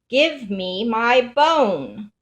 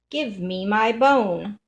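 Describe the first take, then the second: First: It is said somewhat louder. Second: It is said softly.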